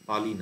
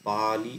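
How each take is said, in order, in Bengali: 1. প্রথম স্বরটি হ্রস্ব রাখা হয়। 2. প্রথম স্বরটি টেনে দীর্ঘ করা হয়। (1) "না" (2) "এরকম উচ্চারণ হবে, মানে পাতে একটু টান পড়লো"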